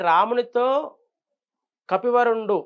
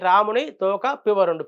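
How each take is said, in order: First: The break comes after 'ramunito'. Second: The break comes after 'ramuni'. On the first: The best of monkeys spoke to Rama. The speaker calls it right. "రామునితో కపివరుండు అనే దానికి" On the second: Rama's tail, someone called pivarundu. The speaker calls it wrong. "రాముని తోక పివరుండు. పివరుండంటే ఎవడు? రామునికి తోక ఏంటి?"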